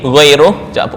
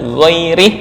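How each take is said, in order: First: The last syllable has an 'u' vowel. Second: The last syllable has an 'i' vowel. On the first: "Ini ghairuh" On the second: "Abu Ja'far Al-Madani ghairih"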